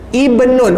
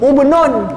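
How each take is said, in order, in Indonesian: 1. Kata ini dimulai dengan vokal 'i'. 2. Kata ini dimulai dengan vokal 'u'. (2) "mulalah dengan baris depan, patutnya sebut ubnun"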